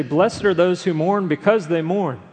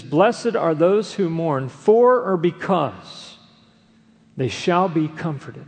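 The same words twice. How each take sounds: First: Said in the usual way. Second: Slow, with "for or because" weighed out and punched; stress on for or because. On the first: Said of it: "Jesus did not simply say". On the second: Shown as a demonstration. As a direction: lean hard on "for or because", then land it. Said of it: "He says".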